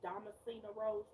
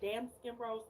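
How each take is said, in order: First: The first word sounds like 'Damascena'. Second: The first word sounds like 'damn skin'. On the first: The speaker calls it right. "it's Damascena Rose" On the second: The speaker calls it wrong. "I've been saying damn skin rose"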